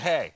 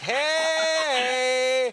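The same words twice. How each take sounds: First: The hey is short and plain. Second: The hey is long and drawn out.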